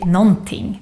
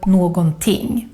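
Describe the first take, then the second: First: The word is pronounced in a shortened form. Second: Every written syllable of the word is pronounced. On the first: This is how people normally speak. The speaker calls it right. "We normally just say" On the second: This follows the written form. The speaker calls it wrong. "This is how we write it. But it's very rare to hear this"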